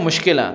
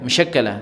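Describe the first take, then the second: First: The word begins with 'mush' and is shortened. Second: The word begins with 'mash' and keeps all syllables. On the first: The speaker calls it wrong. "कुछ लोग बोलते हैं मुश्किला, तो ये गलत है" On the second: The speaker calls it right. "मुश्किला नहीं है, मशक्कला है"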